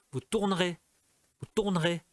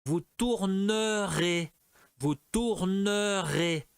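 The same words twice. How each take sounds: First: "tournerez" said in two quick syllables, tour'rez, the middle E dropped; E muet avalé. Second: "tournerez" said slowly with every E sounded: tour-ne-rez; E muet prononcé à tort. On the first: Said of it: "eles falaram". ("tournerez" en deux syllabes, tourn'rez, sans le E du milieu) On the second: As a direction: lay out "tournerez" slowly, E in the middle fully sounded. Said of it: "aí eu falaria". ("tournerez" lentement, avec le E du milieu bien prononcé) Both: Shown as a demonstration.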